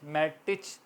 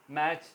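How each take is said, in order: First: मैटिच, the letters sounded out as written; spelled-out reading. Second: मैच said with the T dropped, like "mach"; silent t. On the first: Teacher shows students the spelled-out reading, T sounded. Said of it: "मैटिच है मगर मैच pronounce होगा". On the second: Teacher gives students the correct form, T silent. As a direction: say मैच with no T at all. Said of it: "मगर मैच pronounce होगा". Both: Shown as a demonstration.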